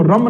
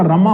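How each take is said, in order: First: रम ending on the m; रम closed on m, without a vowel after it; wrong form रम. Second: रमा with a long final aa; correct form रमा. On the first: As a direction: say रम as one syllable, no final aa. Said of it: "रम नहीं होता". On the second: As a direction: say रमा in two syllables, ending in an open aa. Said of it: "रमा होता है". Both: Shown as a demonstration.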